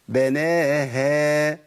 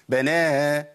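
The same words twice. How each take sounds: First: The final h sound is light and clearly heard. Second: The final h sound is dropped entirely. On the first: The speaker calls it right. "سامعين صوت الهاء؟" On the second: The speaker calls it wrong. "الهاء اختفت خالص"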